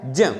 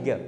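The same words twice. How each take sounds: First: "ज" as a j sound with a nasal glide, jnya; correct pronunciation. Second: "ग" with a hard g, gya; common mispronunciation. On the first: Teacher shows students the proper letter sound, correct "ज" with j. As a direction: say "ज" starting on j, not g. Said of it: "इसका सही pronunciation क्या है". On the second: Teacher shows what people usually say, mispronounced "ग" with hard g. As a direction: say "ग" starting on g instead of j. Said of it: "अपन क्या करते हैं". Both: Shown as a demonstration.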